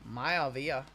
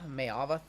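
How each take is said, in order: First: The name ends with a 'vee-ah' sound. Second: The name ends with a short 'vah' sound. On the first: The speaker calls it right. "So it is like Rocky Maivia" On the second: The speaker calls it wrong. "I think it's Mayava"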